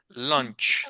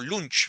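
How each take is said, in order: First: The vowel sounds like a roughly rounded o. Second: The vowel sounds like a plain oo. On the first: The speaker calls it right. "suena como una mezcla entre O" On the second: The speaker calls it wrong. "esta U en inglés no suena como U, como lunch"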